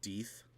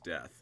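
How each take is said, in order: First: The vowel is long, as in 'deep'. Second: The vowel is short, as in 'dead'. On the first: This is the intended pronunciation of the name. "isn't his name pronounced Deeth?" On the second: The name is read the way it is spelled. "His name is Death"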